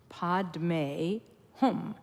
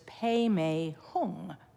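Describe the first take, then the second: First: It sounds like padme hum, ending in m. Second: It sounds like peme hung, ending in ng. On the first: "That's the Sanskrit pronunciation" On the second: "a lot of people use the Tibetan pronunciation"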